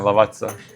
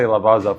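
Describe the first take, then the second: First: The name has an Italian pronunciation. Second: The name has an anglicized pronunciation. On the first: The speaker calls it right. "It's supposed to be Italian" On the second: The speaker calls it wrong. "I used to say Lavazza for like a long time"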